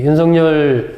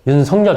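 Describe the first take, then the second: First: The name follows the bearer's own preferred pronunciation. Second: The name follows standard Korean sound-change rules. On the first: "윤석열이라고 제가 발음을 하는데" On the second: "제대로 우리 국어 맞춤법에 따르면 윤석열 이렇게 해야 되는데"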